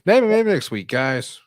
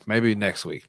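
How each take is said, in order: First: Higher, louder call-out; emphatic repeat. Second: Said in the usual way. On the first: Real, not acted. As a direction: call it out playfully to the guys.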